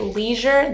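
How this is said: It is said in an American accent. "in America, we say leisure"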